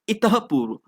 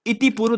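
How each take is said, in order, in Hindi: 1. पहला शब्द हल्की साँस वाली 'ah' पर समाप्त होता है। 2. पहला शब्द 'ee' स्वर पर समाप्त होता है। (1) "इतः पूर्व होता है" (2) "इति पूर्व दोस्तों नहीं होता है"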